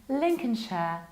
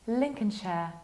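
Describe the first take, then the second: No difference in how they are said.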